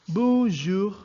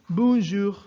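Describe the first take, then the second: The two takes are said the same way.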